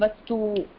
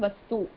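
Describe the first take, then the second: First: The u vowel is held long. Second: The u vowel is cut short. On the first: The speaker calls it right. "I'm saying Vastu" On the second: The speaker calls it wrong. "You're saying Vastu"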